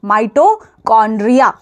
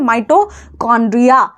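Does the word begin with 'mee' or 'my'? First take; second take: my; my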